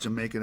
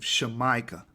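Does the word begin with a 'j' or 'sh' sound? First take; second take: j; sh. First: The word begins with a 'j' sound. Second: The word begins with an 'sh' sound. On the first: The speaker calls it wrong. "Jamaica is not supposed to be pronounced Jamaica. That's a mispronunciation" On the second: The speaker calls it right. "That's how you're supposed to say it"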